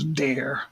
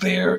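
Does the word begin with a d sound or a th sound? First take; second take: d sound; th sound. First: The word begins with a d sound. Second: The word begins with a th sound.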